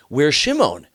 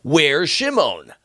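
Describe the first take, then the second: First: Anxious father calling. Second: Slow anxious father. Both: Acted. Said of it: "Yaakov's like".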